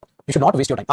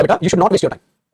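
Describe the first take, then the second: First: Said in the usual way. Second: Slow, drawn-out telling-off; slow scolding. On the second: Shown as a demonstration. Teacher slowly scolding a student who wastes time. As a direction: stretch every word out slowly like a teacher scolding. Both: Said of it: "जैसे बच्चे को डांटा था".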